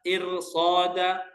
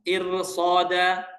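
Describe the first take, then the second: No difference in how they are said.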